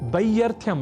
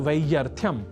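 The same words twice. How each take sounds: First: The word begins with a b sound. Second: The word begins with a v sound. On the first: The speaker calls it wrong. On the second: The speaker calls it right.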